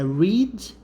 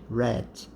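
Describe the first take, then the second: First: The vowel is long, like in 'reed'. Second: The vowel is short, like in 'red'. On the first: It is the present tense. "Aqui é read" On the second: It is the past tense. "o passado é read"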